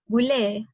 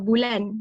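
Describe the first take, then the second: First: The word ends with an 'e' vowel. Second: The word ends with an 'n' sound. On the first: This is the Kelantan dialect form. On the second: This is the standard Malay form.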